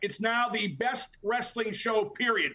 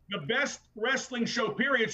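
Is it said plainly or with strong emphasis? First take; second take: plainly; strong emphasis. First: It is said plainly, without extra emphasis. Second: It is said with strong, forceful emphasis.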